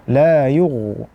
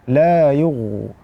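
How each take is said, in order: No difference in how they are said.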